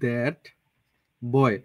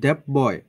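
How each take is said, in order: First: The t at the end of 'that' is fully pronounced. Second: Said fast, the t in 'that' is not fully pronounced.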